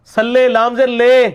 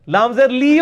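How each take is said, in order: First: "لے" loud, high and drawn out, as "lay"; wrong majhul vowel. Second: "لی" high and insistent, a long "lee"; correct Arabic vowel. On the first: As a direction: stretch "لے" out loudly to expose the error. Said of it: "کہتے ہیں". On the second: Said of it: "ہوتا ہے". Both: Shown as a demonstration.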